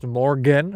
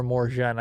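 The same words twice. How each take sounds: First: "Morgan" with a hard G. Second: "Morgen" with a soft G, like "zh". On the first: Asking how the German word sounds, "Morgan" with hard G. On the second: Offering the other German pronunciation, "Morgen" with soft G. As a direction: soften the G in "Morgen" to a "zh" sound. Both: Shown as a demonstration. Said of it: "is the G pronounced".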